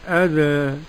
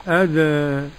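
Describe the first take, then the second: First: The final vowel leans slightly toward an e sound. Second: The final vowel leans slightly toward an e sound.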